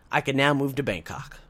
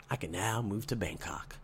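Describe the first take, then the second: First: Said in the usual way. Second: Much lower and softer, savoring it. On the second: Shown as a demonstration. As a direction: say it quietly, savoring it.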